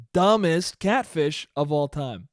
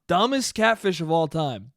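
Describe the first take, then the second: First: DUMBEST punched, then slowed right down; slow verdict with weight on "Dumbest"; slow, emphatic. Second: Said in the usual way. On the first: Real, not acted. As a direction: stretch it out, leaning on "Dumbest". Repeats the mockery, slowed down.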